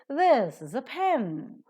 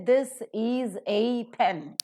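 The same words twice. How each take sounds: First: 'Is' and 'a' are reduced to weak forms. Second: Every word is said fully, with no rhythm. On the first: The speaker calls it right. "You say" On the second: The speaker calls it wrong. "you don't say this is a pen, which will not have any rhythm at all"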